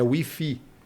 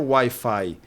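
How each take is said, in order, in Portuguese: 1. É pronunciado do jeito espanhol. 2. É pronunciado do jeito inglês. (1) "é Wi-Fi" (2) "Não é Wi-Fi"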